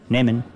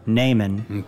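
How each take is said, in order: First: The first vowel is short. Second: The first vowel is long. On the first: The speaker calls it wrong. "instead of short E" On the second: The speaker calls it right. "we know it's nehmen"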